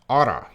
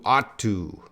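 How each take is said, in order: First: The words run together quickly as one. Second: Both words are said fully and separately.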